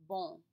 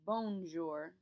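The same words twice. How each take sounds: First: Bon with a nasal vowel through the nose; correct nasal bon. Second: Bonjour said wrongly like English bone with a hard n. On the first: Teacher showing students the correct nasal bon. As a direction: model the right French bon. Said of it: "It should not sound like the English word bone". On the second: Teacher showing students the wrong English-style bonjour. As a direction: show the mistake clearly. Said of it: "should not sound like the English word bone". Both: Shown as a demonstration.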